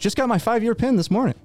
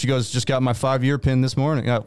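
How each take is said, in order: First: It is said in a put-on character voice. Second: It is said in the speaker's ordinary voice. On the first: The speaker calls it right. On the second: The speaker calls it wrong.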